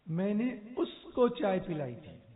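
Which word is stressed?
उसको. The stress is on उसको.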